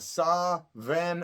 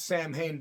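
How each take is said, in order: First: The second syllable starts with a V sound. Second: The second syllable starts with an H sound. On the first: The speaker calls it right. "is how it's really pronounced" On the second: The speaker calls it wrong. "It's really not the correct pronunciation"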